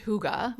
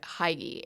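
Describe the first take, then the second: First: The word is said in its native Danish way. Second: The word is read as its English spelling suggests. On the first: The speaker calls it right. "but it's it's pronounced Hygge" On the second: The speaker calls it wrong. "It's written like I pr- I pronounced it when I first discovered it"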